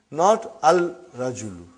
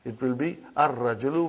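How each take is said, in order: First: Al-rajulu said with the lam sounded, as the wrong form. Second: Ar-rajulu with a doubled r and no lam; right ar-rajulu. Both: Shown as a demonstration. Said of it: "It will be wrong to say al-rajulu".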